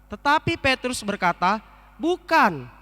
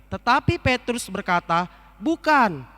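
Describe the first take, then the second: No difference in how they are said.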